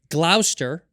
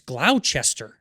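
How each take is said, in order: First: The name is said in its short local form. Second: The name is said letter by letter as spelled. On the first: This is how locals say it. "Is how you pronounce it" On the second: This follows the spelling. "but I'm like, no, it's Glou- it's Gloucester"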